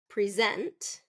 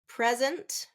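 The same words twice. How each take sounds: First: It is said as the verb, stressing the second syllable. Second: It is said as the noun, stressing the first syllable. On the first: It names an action. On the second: It names a thing.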